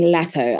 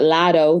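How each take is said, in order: First: The name is said in a British accent. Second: The name is said in an American accent.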